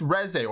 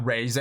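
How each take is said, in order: First: REZE with a short first vowel, "REZ-ay"; insisted pronunciation. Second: REZE with a long first vowel, "RAY-zay"; corrected pronunciation. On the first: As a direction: say Reze as "rez-ay", correcting someone. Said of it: "It's not Reze". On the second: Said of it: "people love to be like". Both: Acted.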